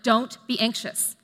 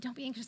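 First: The tone is stern and scolding. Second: The tone is soft and comforting. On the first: The listener is being rebuked for not trusting God. "I could say them with a tone, gesture, posture, facial expression like don't be anxious. You are not trusting God" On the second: The listener is being comforted and reassured. "how I'd say them to my niece when she's scared to go to school"

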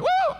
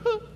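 First: It is hollered loudly and freely. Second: It is said in a small, restrained way.

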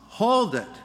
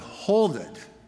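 First: It is shouted at full volume. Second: It is said somewhat louder.

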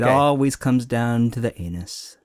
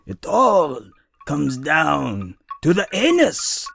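First: It is said in the speaker's normal voice. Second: It is said in a put-on mock accent.

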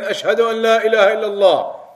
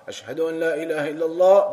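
First: It is said loudly. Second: It is said quietly.

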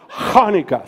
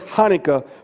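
First: The word begins with a harsh throat sound. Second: The word begins with a soft plain h. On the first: The speaker calls it right. "Start deep in your throat" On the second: The speaker calls it wrong. "some say Hanukkah"

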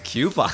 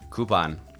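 First: The word begins with a 'kyoo' sound. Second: The word begins with a plain 'koo' sound. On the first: The speaker calls it wrong. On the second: The speaker calls it right.

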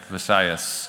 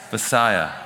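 First: The word ends with a final s sound. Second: The word ends in a vowel, without final s. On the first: The speaker calls it right. "You got to put the S on the end of it" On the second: The speaker calls it wrong. "I always mess up that Visaya"

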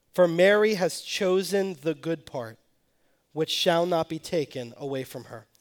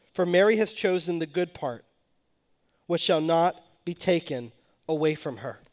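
The two takes are said the same way.

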